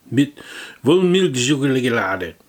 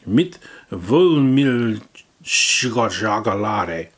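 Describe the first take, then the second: First: Slow loud German product read; hammed-up German; mock German accent. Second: Very slow, loud German drawl; mock German accent. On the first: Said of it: "mock German product name". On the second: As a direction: stretch out the German. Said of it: "repeats slower".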